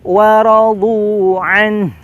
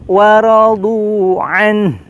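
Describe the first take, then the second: Both takes have the same delivery.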